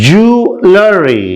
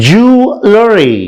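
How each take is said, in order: No difference in how they are said.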